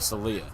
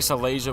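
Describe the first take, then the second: First: The name ends in a short 'lea' sound. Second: The name has an extra 'sia' syllable. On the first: The speaker calls it right. "correction of the former pronunciation" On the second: The speaker calls it wrong. "I was saying Salasia before"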